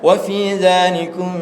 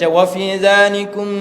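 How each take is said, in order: First: The m is held lightly with a nasal hum. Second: The m is pressed hard with closed lips. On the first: The speaker calls it right. "tapi kena baca wa fi dzalikum, mm, mm, mm. Tak boleh tekan" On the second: The speaker calls it wrong. "Jangan sampai kita baca"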